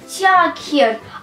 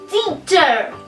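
First: Every written letter is sounded, like tee-a-ker. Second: It is said as one smooth word, tee-cher. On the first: This is how the word is spelled. The speaker calls it wrong. "Пишется тиакер" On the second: This is how the word is read aloud. The speaker calls it right. "А читается teacher"

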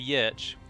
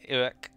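First: It starts with a Y sound, like yerch. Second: It sounds like the English word orc. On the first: The speaker calls it wrong. "Many people would see that and probably say Yerch. Which is, of course, incorrect" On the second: The speaker calls it right. "that is how you pronounce it"

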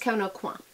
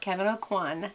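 First: The name ends without an N sound. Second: The name ends with an audible N sound. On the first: The speaker calls it right. "You don't pronounce the N" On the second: The speaker calls it wrong. "Not Kevin O'Quan"

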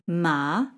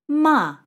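First: The pitch rises from mid to high. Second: The pitch falls sharply from high to low. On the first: It means flax. "The second tone" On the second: It means to scold. "And the fourth tone"

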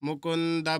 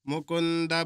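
The two takes are said the same way.

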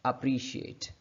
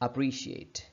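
Both takes have the same delivery.

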